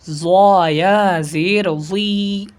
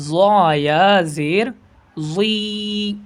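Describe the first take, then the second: No difference in how they are said.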